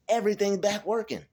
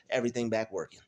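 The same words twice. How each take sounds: First: Excited. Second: Said in the usual way. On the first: Real, not acted. Repeats it, overjoyed.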